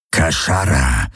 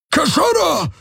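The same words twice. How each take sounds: First: Low growled alien word; growling. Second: Roared high and far off his usual voice; roaring. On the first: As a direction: growl it like a predator. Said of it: "knurrte er". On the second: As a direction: bellow it like a beast. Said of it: "brüllte er sie an". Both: A narrator's reading.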